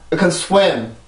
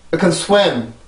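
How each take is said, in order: Both takes have the same delivery.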